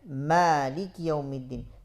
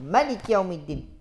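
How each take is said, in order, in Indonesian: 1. Vokal pertama pada Malik panjang. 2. Vokal pertama pada Malik pendek. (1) "kita baca dengan mad ... dengan alif" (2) "dibaca dengan hasfu ... Hasfun"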